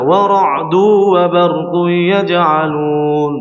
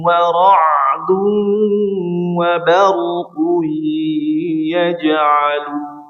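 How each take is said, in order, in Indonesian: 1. Bunyi sengaunya dipotong pendek. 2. Bunyi sengaunya ditahan dengan panjang penuh. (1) "Tidak sempurna... Kurang sempurna" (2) "dibaca dengan sempurna"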